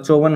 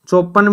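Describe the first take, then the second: First: The middle consonant is a v sound. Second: The middle consonant is a p sound. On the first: The speaker calls it right. "होता है" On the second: The speaker calls it wrong. "भी नहीं होता"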